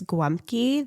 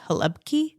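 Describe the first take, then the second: First: It has a w-like sound and an m. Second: It starts with an h sound. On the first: "that's Polish" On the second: "people from Croatia say ... like an H or something"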